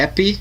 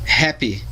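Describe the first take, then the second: First: The h is silent; it starts with a vowel. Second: It starts with a breathy h sound. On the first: The speaker calls it wrong. "não tem o som mudo, como a gente usa aqui em português, não é happy" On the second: The speaker calls it right. "H tem som de R de rato em inglês"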